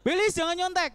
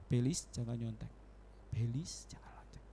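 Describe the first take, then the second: First: Higher, louder firm warning; loud inner voice. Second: Lower, softer, fading to a whisper. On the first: God's voice warning Belis at first, loud and firm. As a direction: call it out clearly at first. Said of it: "Kenceng pertamanya". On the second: God's voice growing faint as Belis ignores it, whispered. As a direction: let the voice die away. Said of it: "Lama-lama suaranya". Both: Retold or imitated.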